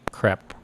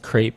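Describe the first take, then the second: First: The vowel sounds like the word 'crap'. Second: The vowel sounds like the standard 'crepe'. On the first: This is how people say it locally. "here I just got used to calling it crap" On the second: This is the proper pronunciation. "according to how to pronounce it"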